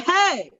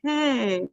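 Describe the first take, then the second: First: It is yelled loudly, with force. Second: It is said quietly, without force.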